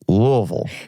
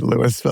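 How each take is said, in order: First: The name is said the Kentucky way. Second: The name is said the Colorado way. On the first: This is how locals in Kentucky say it. "In Kentucky, they call it Louisville" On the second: This is how locals in Colorado say it. "I think in Colorado they say Louisville"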